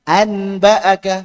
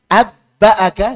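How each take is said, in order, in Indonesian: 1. Bunyi n ada tepat sebelum b. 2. Bunyi b ganda ada sebelum b. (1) "Yang tadinya anba'aka ... berat?" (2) "dengan ba coba. Enggak cocok"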